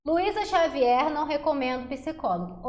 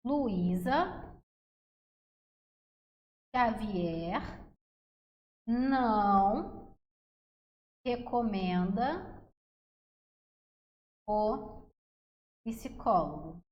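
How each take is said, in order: First: Said in the usual way. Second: Slow, with long pauses between words; measured memory-phrase dictation, waiting after each word. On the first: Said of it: "Grava essa frase". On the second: Shown as a demonstration. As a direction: dictate it one word at a time, drawn out. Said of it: "Vai ser assim".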